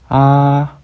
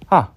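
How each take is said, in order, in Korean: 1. 높이가 변하지 않고 높게 유지됩니다. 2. 높은 곳에서 급하게 떨어집니다. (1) "평평한 성조" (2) "떨어지는 성조"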